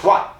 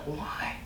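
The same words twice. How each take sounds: First: It is said harshly and accusingly. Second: It is said softly and empathetically.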